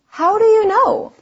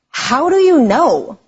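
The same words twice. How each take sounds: First: The tone sounds interested and curious. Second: The tone sounds doubting and rude. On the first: The speaker honestly wants to know the reason. The speaker calls it right. "the second way sounded interested and honestly curious" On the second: The speaker disagrees and does not believe the other person. The speaker calls it wrong. "One way sounds rude"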